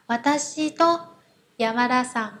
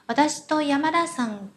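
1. Trợ từ 'to' được nói nhấn mạnh và rõ ràng. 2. Trợ từ 'to' được nói nhẹ, gần như không nghe thấy. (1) "Mình nhấn mạnh từ tô đấy là để cho các bạn nghe hiểu thôi" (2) "được nói một cách rất là nhẹ và gần như là không nghe thấy"

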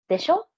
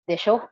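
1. Tumataas ang tono sa dulo ng salita. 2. Bumababa ang tono sa dulo ng salita. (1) "Yung disho na diba, yun yung disho na pataas" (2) "Then we have desho na pababa. Siguro naman sa Tagalog"

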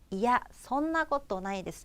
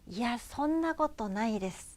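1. 평범하고 중립적인 어조로 말해요. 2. 겸손하고 자기를 낮추는 어조로 말해요. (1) "한 번 더요" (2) "정말로 겸손한 척 하면서 다시 한 번만요"

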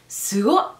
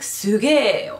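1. A végső i hangot elhagyják, o-ra végződik. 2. A szó elnyújtott e hangra végződik. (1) "hanem szugo, ez hát inkább fiúk" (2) "úgy is ejtik ki, mint hogyha ére végződne"

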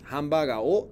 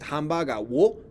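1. La partícula se pronuncia como una o simple. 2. La partícula se pronuncia con un sonido w. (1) "Y tú dices hambaga o" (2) "aunque tú dices hambaga wo"

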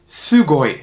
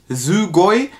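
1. Das erste s ist scharf und stimmlos, zischend. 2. Das erste s ist weich und stimmhaft, wie z. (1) "sondern Sugoi" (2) "Also nicht Sugoi"

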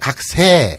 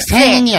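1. 이 단어는 평범한 모음으로 끝납니다. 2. 이 단어는 비음 ng 소리로 끝납니다. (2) "각생이 아니라"

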